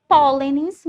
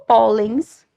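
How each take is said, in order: First: "pólenes" loud and slow, stressed on "pó"; "pólenes" stretched into three syllables, first one strongest; stress kept on first syllable. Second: "pólens" loud and slow, in two syllables; "pólens" stretched and emphatic, no extra final syllable; plural ending in -ns. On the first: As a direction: hit the "pó" of "pólenes", then add -le-nes. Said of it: "mantendo o acento pra que essa sílaba continue sendo a sílaba tônica". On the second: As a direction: punch out "pólens" slowly, ending straight on -ens. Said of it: "retirando o acento". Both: Shown as a demonstration.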